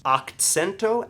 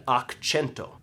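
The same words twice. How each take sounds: First: Akcento said "ak-TSEN-to"; ak-TSEN-to, ts as in "cats". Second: Akcento said "ak-CHEN-to"; ak-CHEN-to, ch as in "cheese"; akĉento with a ch. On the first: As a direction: say akcento with a crisp ts after the k. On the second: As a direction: say akcento with ch after the k. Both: Shown as a demonstration. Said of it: "There's two words".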